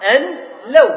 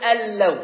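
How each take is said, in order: First: The n sound is heard before the l. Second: The n merges fully into a doubled l. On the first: "أصلها أن لو" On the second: "فنطقنا ألو، ذهبت النون"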